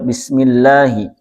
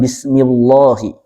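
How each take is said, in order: First: The L is pronounced light and thin. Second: The L is pronounced heavy and thick. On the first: The speaker calls it right. "larinya ke tipis" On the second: The speaker calls it wrong.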